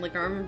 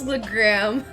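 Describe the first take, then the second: First: The R sound comes after the A vowel. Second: The R sound comes before the A vowel. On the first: The speaker calls it wrong. "try and say it right since you misspelled it" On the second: The speaker calls it right. "The R goes before the A"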